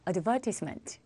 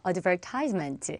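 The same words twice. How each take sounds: First: It is said with a British accent. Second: It is said with an American accent.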